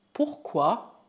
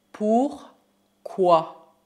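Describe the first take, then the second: First: Said in the usual way. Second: "Pourquoi" in two slow, loud halves; syllable by syllable. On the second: Shown as a demonstration. Teacher models new word, syllable by syllable. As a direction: pause inside "Pourquoi".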